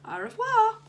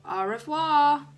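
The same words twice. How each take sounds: First: Very high, loud singsong French farewell; calling after. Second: Put-on loud, slow, deliberately un-French accent. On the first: Teacher to departing pupil, calling a French goodbye after him. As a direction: call out goodbye in French, pitched right up. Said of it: "she called after him". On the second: Dennis calling back to teacher in a deliberately un-French accent. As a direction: drag out the French with the least French accent possible. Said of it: "in the most un-French accent he could manage". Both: A narrator's reading.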